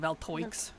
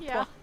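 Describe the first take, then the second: First: The name is sounded out as it is spelled. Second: The name is given a French-style pronunciation. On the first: "it looks like Valtoix" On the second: "but that's the French spelling"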